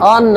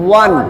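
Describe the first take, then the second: First: The word starts with a plain vowel, unrounded. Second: The word starts with rounded lips, a w glide. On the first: The speaker calls it wrong. "অন না" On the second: The speaker calls it right. "ঠোঁটটা গোল করে"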